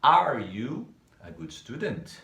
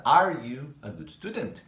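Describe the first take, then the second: First: Slow, even reading of the question; slow model question. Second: "are you a good student?" with a rising question tune, "are" louder; question intonation. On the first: Teacher reviewing the question form for students. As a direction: lay it out slowly and flatly. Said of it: "A primeira delas a gente usou o you". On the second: Teacher showing students the rising question tune. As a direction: lift the voice at the end like asking. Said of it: "A entonação de pergunta". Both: Shown as a demonstration.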